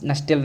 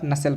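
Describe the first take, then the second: First: नस्टेल with the t spoken out, nus-tell; wrong reading of nutshell with t; wrong pronunciation. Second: नसेल with the t silent, nuh-sell; right pronunciation. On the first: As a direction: say नस्टेल, t clearly sounded. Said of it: "टी यहाँ पर silent है". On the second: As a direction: say नसेल, no t sound. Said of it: "नस्टेल नहीं पढ़ेंगे". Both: Shown as a demonstration.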